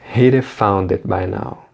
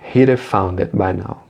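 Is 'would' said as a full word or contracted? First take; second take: contracted; contracted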